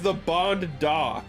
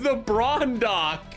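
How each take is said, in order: First: The name is said without an R sound. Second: The name is said with an R sound. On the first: The speaker calls it right. "Like James Bond. I've been saying it wrong" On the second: The speaker calls it wrong. "There's no R in it, damn it! I thought it was"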